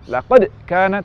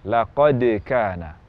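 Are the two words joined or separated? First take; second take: separated; joined. First: There is a break between the two words. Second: The two words flow together without a break. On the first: The speaker calls it wrong. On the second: The speaker calls it right. "yang tepat"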